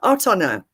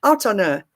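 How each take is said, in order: First: The words run together into one linked stream. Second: The same.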